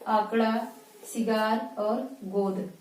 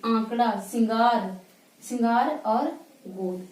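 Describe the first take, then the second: First: सिगार and गोद said through the mouth alone, no nasal hum; no nose in सिगार और गोद; oral vowels only. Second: सिंगार and गोद said through nose and mouth, nasal सिं and ओं; nasalized आंकड़ा सिंगार गोद; nasal vowels. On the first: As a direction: keep सिगार गोद fully oral, slowly. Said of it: "यहाँ पे हम नाक की सहायता नहीं लेंगे". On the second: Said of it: "नाक और मुख दोनों से". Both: Shown as a demonstration.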